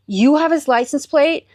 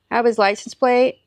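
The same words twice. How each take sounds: First: Higher, incredulous rising question; can't believe what you just heard; retold amazement, pitched up at the end; astonished question. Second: Retold nonchalant stranger, matter-of-fact; offhand gum-chewer. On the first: Retold astonished reply to stranger. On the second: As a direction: imitate a casual guy chewing gum. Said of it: "just, like, chewing his gum".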